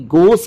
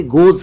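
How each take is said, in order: First: Voiceless s, no buzz, closing गोस; voiceless s ending. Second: Voiced z closing गोज; correct z ending. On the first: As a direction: say गोस as "gos". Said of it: "गोस के बदले". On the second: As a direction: say गोज as "goz". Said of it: "गोज क्यों हो रहा है". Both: Shown as a demonstration.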